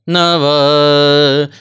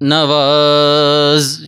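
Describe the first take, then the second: First: The final consonant is weak and nearly dropped. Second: The final consonant is pronounced clearly and fully. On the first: The speaker calls it wrong. "बंदा आखिरी लफ्ज़ छोड़ देता है, ... ऐसे नहीं करना" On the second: The speaker calls it right. "ज की आवाज़ आपको वाजे जो है वो खुद भी सुनाई देनी चाहिए"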